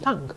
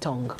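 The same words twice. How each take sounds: First: The vowel is pronounced the received, standard way. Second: The vowel is pronounced the common local way. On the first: This is the standard pronunciation. The speaker calls it right. "the proper pronunciation is tongue" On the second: This is how most local speakers say it. The speaker calls it wrong. "like most of us, we say tongue"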